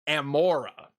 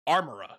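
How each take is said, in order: First: The first syllable sounds like am. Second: The first syllable sounds like arm. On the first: The speaker calls it right. "like am and then an aura" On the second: The speaker calls it wrong. "which is what I always say"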